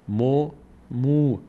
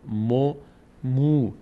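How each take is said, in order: No difference in how they are said.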